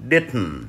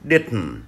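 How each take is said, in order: Both takes have the same delivery.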